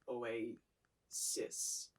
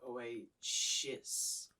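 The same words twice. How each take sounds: First: The last syllable has an s sound. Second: The last syllable has an sh sound. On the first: The speaker calls it right. "the correct pronunciation is" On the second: The speaker calls it wrong. "it sounds like you say"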